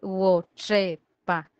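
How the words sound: The middle consonant is a ch sound. This is the Iroca dialect form. "En Iroca... para decir mujer, dicen Wochepa"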